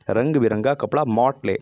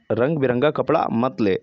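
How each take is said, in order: First: मॉट ले with the open English "mot" vowel; मॉट said English-style. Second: मत ले with a short clear "mat" vowel; मत said plainly. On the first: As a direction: say "मॉट ले" like the English word motley. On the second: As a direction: say "मत ले" as the plain Hindi word मत. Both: Shown as a demonstration. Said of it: "मॉट से निकला मत".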